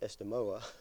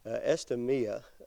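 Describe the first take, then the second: First: The name ends with an 'oh-ah' sound. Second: The name ends with an 'ee-ah' sound. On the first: The speaker calls it right. "it's Estemoa, if I can say that right" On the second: The speaker calls it wrong. "no, it's not Estemia"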